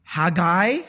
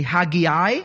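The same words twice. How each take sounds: First: Haggai said as HAG-eye; two-syllable pronunciation. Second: Haggai said in three syllables, HAG-ee-eye; alternative pronunciation. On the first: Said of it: "How do you pronounce it". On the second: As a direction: say Haggai with an extra ee before the final eye. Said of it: "I hear some people say". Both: Shown as a demonstration.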